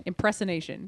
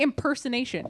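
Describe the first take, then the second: First: "Impersonation" garbled as im-press-uh-nation; mispronounced word. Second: "impersonation" with PER as second syllable; correct pronunciation attempt. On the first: Real, not acted. Co-host failing at a word, "Impersonation" said im-press-uh-nation. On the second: Shown as a demonstration. Co-host struggling with a word, "impersonation" said im-per-suh-nation. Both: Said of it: "Why can't I not say impersonation".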